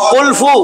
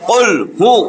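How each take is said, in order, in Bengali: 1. 'qul' এর পরের শব্দটি f উচ্চারণ দিয়ে শুরু। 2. 'qul' এর পরের শব্দটি h উচ্চারণ দিয়ে শুরু।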